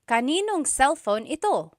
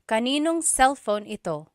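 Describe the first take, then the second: First: Words are merged and na is dropped. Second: The same.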